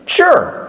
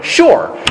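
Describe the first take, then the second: First: High swooping "Sure." falling hard; loaded sure. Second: Loaded sure. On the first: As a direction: pack all that doubt into one drawn-out "Sure.". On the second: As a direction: say "Sure." with a resigned fall. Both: Retold or imitated. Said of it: "So all that went into one word".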